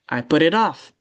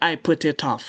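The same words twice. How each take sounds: First: The T is a soft, D-like flap. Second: The T is a crisp, released T sound. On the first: The speaker calls it right. "you should say" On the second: The speaker calls it wrong. "Not ... it will sound so bad if you say that"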